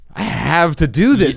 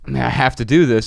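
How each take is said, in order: First: It sounds emphatic, like an eager inner drive. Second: It sounds flat, like a reluctant obligation. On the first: The speaker can't believe they get to do it. "italicize your inflection there" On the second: The task is a chore that must be done. "It wasn't"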